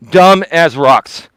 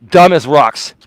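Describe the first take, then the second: First: "Dumb as rocks" drawn out slowly, DUMB hit hard; slow, scornful "Dumb as rocks" with DUMB stressed; slow emphatic repeat. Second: Said in the usual way. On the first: Real, not acted. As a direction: spell out "Dumb as rocks" at half speed, leaning on DUMB. Insulting trolls, repeats slowly.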